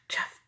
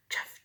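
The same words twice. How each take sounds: The two takes are said the same way.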